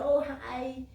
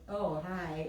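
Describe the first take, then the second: First: The greeting sounds warm and friendly. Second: The greeting sounds cold and condescending.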